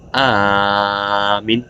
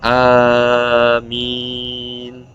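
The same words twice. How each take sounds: First: The final syllable is cut short. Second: The final syllable is drawn out long. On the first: A command telling someone to believe. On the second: A plea asking God to answer the prayer.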